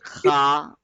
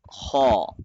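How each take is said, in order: First: It is light, with a plain a vowel. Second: It is heavy, with an aw vowel. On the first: The speaker calls it wrong. "which makes it a light letter, and that is also wrong" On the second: The speaker calls it right. "So the correct one is haw, having the aw sound in it"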